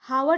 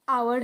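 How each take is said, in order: First: The word begins with an h sound. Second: The word begins with a vowel sound. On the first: The speaker calls it wrong. "यहाँ पे भी हावर नहीं होता" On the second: The speaker calls it right. "तो आवर है"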